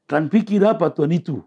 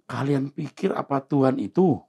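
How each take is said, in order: First: Blunt Batak-style challenge. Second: Said in the usual way. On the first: Retold or imitated. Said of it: "Orang Batak gitu". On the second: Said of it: "Pakai bahasa begitu".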